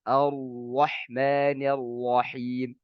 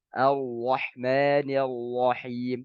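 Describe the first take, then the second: No difference in how they are said.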